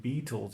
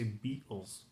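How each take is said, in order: First: Said in the usual way. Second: BEATLES with a British T, said softly; attempted British accent. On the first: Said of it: "I can do the T's". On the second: Shown as a demonstration. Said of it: "I tried to do the British accent".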